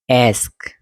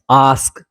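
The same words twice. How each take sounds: First: आस्क with the vowel of cat; American "ae" sound. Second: आस्क with an open long "ah"; "ah" sound. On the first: Teacher contrasts the two vowels, American pronunciation. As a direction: say आस्क as "aesk". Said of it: "आ और ए याद रखना". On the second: Teacher contrasts the two vowels, British pronunciation. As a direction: say आस्क as "ahsk". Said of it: "आ की जब भी sound आएगी". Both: Shown as a demonstration.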